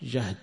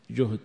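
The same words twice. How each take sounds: First: جهد said "jahd", with an a; fatha on the jim. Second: جهد said "juhd", with a u; damma on the jim. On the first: Teacher gives the hardship meaning, جهد said "jahd". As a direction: open the first vowel of جهد to "jahd". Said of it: "وهو بالفتح". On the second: Teacher gives the capacity meaning, جهد said "juhd". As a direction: round the first vowel of جهد to "juhd". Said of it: "وبالضم الوسع". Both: Shown as a demonstration.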